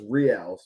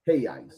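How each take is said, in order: First: The word begins with an English R sound. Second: The word begins with an H-like sound. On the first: This is how it is said in America. The speaker calls it wrong. "in America I, I, I pronounce it as reals" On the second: This is how it is said in Brazil. The speaker calls it right. "the R makes the H sound, so it's reais"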